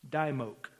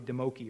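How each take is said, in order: First: The name is said with a Southern accent. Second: The name is said without a Southern accent. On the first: "That's probably, a southern pronunciation" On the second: "It's probably Demoki or something like that"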